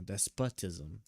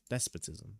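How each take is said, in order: First: "despotism" as des-POT-ism, slow and softer; first-guess pronunciation. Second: "Despotism" as DES-puh-tism, softer and lower; corrected pronunciation. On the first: Reader testing his guess against the reference, sounding out "despotism" as des-POT-ism. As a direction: say "despotism" slowly with a full POT in the middle. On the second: Reader copying the reference, trying out "Despotism" as DES-puh-tism. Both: Shown as a demonstration. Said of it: "Is that?".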